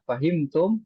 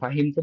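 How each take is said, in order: First: The voice rises at the end like a question. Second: The voice falls at the end like a statement.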